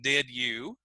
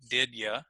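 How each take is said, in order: First: The second word has a full you vowel. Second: The second word is reduced to a short ya.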